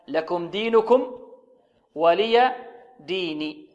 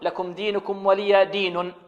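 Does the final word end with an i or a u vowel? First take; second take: i; u. First: The final word ends with an i vowel. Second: The final word ends with a u vowel. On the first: The speaker calls it right. "فالنون هنا مكسورة وليست مضمومة" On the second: The speaker calls it wrong. "ربما تكون مرفوعة ... وهذا خطأ"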